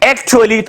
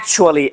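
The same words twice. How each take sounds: First: The middle is said with a plain t sound. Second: The middle is said with a ch sound. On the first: The speaker calls it wrong. "हम नहीं कह सकते" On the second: The speaker calls it right. "हम कहते हैं"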